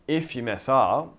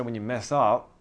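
First: "if" hit louder, the phrase slowed down; deliberate, weighty "if" as a correction; stress on IF. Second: Said in the usual way. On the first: Shown as a demonstration. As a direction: punch the word "if", taking it slowly. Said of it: "it's a big distinction". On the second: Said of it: "actually, I won't say when".

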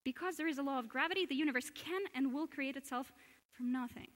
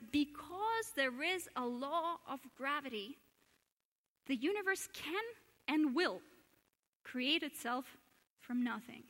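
First: Fast, run-together reading of the same quote; quick reread. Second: Slow deliberate reading. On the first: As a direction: rattle it off in one breath. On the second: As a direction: read the Irish-free quote slowly, with pauses. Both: Shown as a demonstration. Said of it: "Shall I read it again?".

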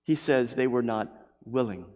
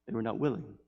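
First: Said in the usual way. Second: Much softer, sinking on willing; soft echo. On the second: Acted. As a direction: let it fall away sadly. Soft echoed repetition.

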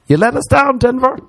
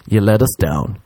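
First: Very high-pitched comic wail; squeaky-high mock reproach to a whole city; mock outrage. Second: Said in the usual way. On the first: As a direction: send the rebuke way up high. Mock rebuke repeated, much higher.

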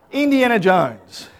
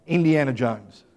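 First: Indiana Jones drawn out, higher and louder; emphatic repeat. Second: Said in the usual way. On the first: Real, not acted. Preacher repeating his surprise find to the congregation, emphatic. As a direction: stretch out "Indiana Jones" with a big falling tune.

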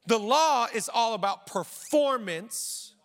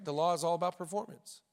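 First: The law is all about performance, slow and weighty, leaning on law; slow emphatic statement. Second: The law is all about performance, softer and fast, tossed off; quick quiet restatement. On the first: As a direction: preach it slowly, each word landing. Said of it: "let me teach you the difference". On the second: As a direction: say it again under your breath, quickly. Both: Shown as a demonstration.

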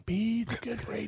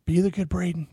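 First: Much softer self-reminder, under the breath; muttered to self. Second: Said in the usual way. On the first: Retold or imitated. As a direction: say it quietly to yourself. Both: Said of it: "I just was like".

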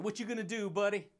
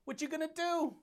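First: Said in the usual way. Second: High mock taunt, softer. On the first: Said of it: "first taunt". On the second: Real, not acted. Taunting the viewer who gets mad, high and teasing. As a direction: tease the listener with a lifted voice. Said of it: "taunt repeated higher".

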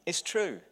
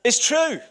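First: Said in the usual way. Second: High, loud emphatic affirmation. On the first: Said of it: "repeated quietly". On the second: Real, not acted. Pastor agreeing with the ladies, loud emphatic agreement. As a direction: insist it with a punch. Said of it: "affirming the ladies' response".

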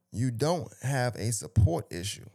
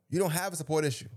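First: Slow, measured quote from a post; deliberate read-out. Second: Quick, higher-pitched insistence; emphatic repeat. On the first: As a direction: read it out word by word, slowly. Reading the post out, then repeating. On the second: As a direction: drive the point home fast and high. Repeats the post line for emphasis. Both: Real, not acted.

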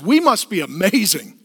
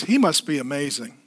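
First: Smug cat theology. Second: Humble dog theology. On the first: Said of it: "cat theology says". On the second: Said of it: "dog theology says". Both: Retold or imitated.

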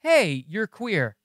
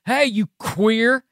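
First: "Hey, you're queer" drawn out slow, a neutral statement; plain statement. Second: "Hey, you queer" drawn out slow and high as an insult; mock slur. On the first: Contrasting a statement with a slur, "Hey, you're queer" said slow and matter-of-fact. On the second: Contrasting a slur with a statement, "Hey, you queer" said slow and mocking. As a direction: say "Hey, you queer" slowly, as a jab calling him queer. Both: Shown as a demonstration. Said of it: "what's the difference in me saying".

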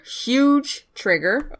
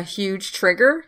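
First: "Huge trigger" drawn out at half speed; emphatic repeat. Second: Said in the usual way. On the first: Real, not acted. Podcaster warning listeners, "Huge trigger" said slowly for emphasis. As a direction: stretch "Huge", then set "trigger" apart slowly.

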